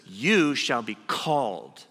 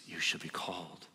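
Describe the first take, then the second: First: Slow, louder, solemn pronouncement; the angel speaking. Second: Softer, lower, almost to himself; hushed echo. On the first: Preacher voicing the angel naming Jacob, slow and solemn. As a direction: hand down a name from above. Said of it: "And the angel says". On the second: Preacher softly repeating God's call to the listener, hushed. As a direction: let the calling sink in quietly. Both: Acted.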